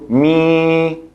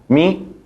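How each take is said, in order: First: The vowel is held long. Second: The vowel is cut very short. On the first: It becomes a different category of vowel. The speaker calls it wrong. "Si pronuncio mi, es otra categoría" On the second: It is the short vowel kasra. The speaker calls it right. "Tiene que estar corta"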